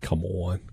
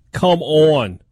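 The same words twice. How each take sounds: First: Said in the usual way. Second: Loud, high Minnesota "come on"; exasperated Minnesota accent. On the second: Acted. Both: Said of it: "You went into your Minnesota accent for that".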